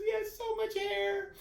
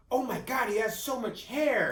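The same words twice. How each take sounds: First: Much higher, slowed wonder; awed wife. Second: High, loud, slowed gasp of delight; amazed doctor. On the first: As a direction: repeat the doctor's words in a high, awed voice. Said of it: "Tanya looks at me and goes". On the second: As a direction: marvel at the baby's hair, a little louder. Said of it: "Doctor Lerner goes". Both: Retold or imitated.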